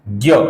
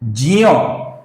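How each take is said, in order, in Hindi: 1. यह 'gya' जैसा बोला जाता है, g से शुरू होता है। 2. यह 'jnya' जैसा बोला जाता है, j से शुरू होता है। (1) "तो इसका उच्चारण हिंदी में कैसा होता है" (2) "ये है इस अक्षर का सही उच्चारण दोस्तों"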